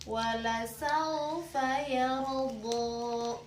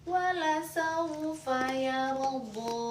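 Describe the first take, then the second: Both takes have the same delivery.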